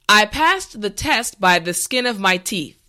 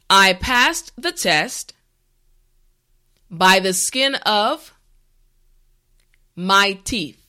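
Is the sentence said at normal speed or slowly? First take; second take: normal speed; slowly. First: The sentence is said at normal speed. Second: The sentence is said slowly and carefully.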